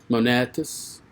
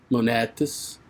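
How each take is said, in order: No difference in how they are said.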